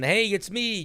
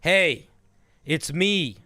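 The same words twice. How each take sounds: First: It is spoken at an ordinary pace. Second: It is spoken a little more slowly. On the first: This is the main character talking. "just talks like a normal person" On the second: This is a different character talking. "same mannerisms, just a little slower"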